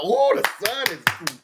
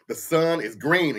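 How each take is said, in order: First: Gullible agreeing. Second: Said in the usual way. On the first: Retold or imitated. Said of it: "and y'all". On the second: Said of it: "They can say this".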